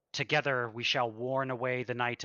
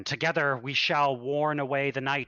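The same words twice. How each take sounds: First: Measured, even preaching with no push; an abbot reciting smoothly to his flock; calm practiced sermon line; rehearsed sermon. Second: The same line repeated louder and more fervent; swelling preacher's cry; fervent sermon. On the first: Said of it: "velvety smooth, a rehearsed speech". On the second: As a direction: abbot pressing on with rising zeal. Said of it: "And he says it again". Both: Acted.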